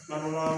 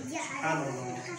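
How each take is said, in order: First: It is said fast and rushed. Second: It is said slowly and fully.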